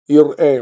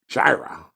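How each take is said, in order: First: The word begins with a vowel, no J sound. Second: The word begins with a J sound. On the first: The speaker calls it right. "you probably never heard it pronounced properly" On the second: The speaker calls it wrong. "There's no J"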